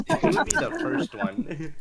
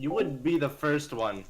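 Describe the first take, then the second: First: Much higher, louder, singsong repeat of the jab; mock high tease. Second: Said in the usual way. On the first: Teasing a friend who swears he'd never, in a mock high voice.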